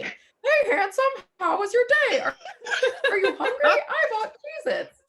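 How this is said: It is said in a high-pitched Grover-like voice.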